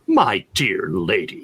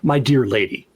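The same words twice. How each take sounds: First: It is said in a cutting, sarcastic tone. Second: It is said in a warm, affectionate tone. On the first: The speaker is insulting the listener. "if it's meant as a cut or sarcastic" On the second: The speaker is showing respect and affection. "an endearing sort of a term"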